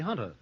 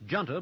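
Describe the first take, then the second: First: The word begins with an H sound. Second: The word begins with a J sound. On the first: The speaker calls it right. "I think it ought to be Hunter" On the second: The speaker calls it wrong. "pronounced Junta"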